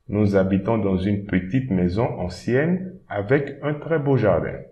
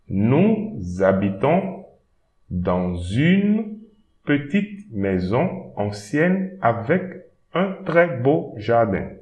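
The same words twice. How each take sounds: First: It is read at normal conversational speed. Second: It is read slowly and carefully.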